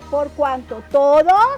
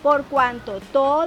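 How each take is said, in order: First: The phrase is said at a slower pace. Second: The phrase is said at a faster pace.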